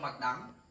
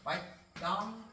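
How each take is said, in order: First: The name is said with a Vietnamese pronunciation. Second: The name is said with an English pronunciation.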